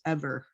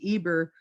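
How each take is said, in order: First: The middle consonant is a v sound. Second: The middle consonant is a b sound. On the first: This is how the name is actually spoken. "when you enunciate it, it's Ever" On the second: This is how the name looks in writing. "when you read it, it reads Eber"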